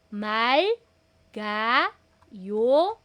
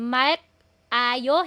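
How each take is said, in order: First: It is read as mal, ga, yo with g. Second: It is read as mak, then ayo, no g. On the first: The speaker calls it right. "naglipat bahay, nag-akyat bahay po siya" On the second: The speaker calls it wrong. "yung mak, ayo, hindi na"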